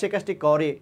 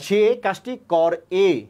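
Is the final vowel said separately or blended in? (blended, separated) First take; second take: blended; separated. First: The final vowel is said briefly and blended in. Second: The final vowel is fully said as a separate sound. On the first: The speaker calls it right. "এটা ছেড়ে দিচ্ছি" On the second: The speaker calls it wrong. "যদি পূর্ণ উচ্চারণ করতেন"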